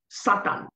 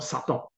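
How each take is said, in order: First: The word is said with a marked accent. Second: The word is said plainly, without the accent. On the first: The speaker calls it right. "avec l'accent" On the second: The speaker calls it wrong. "Et non"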